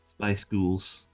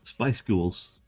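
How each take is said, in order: Both takes have the same delivery.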